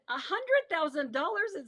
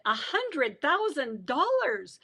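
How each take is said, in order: First: Higher-pitched incredulous echo; retold disbelief. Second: Drawn out, weighty figure; slow announcement. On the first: Prisoner echoing her bail to the guard, mild disbelief. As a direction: echo the sum, pitch raised. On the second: Retold or imitated. Guard telling prisoner the bail, slow announcement. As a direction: stretch each word of the sum.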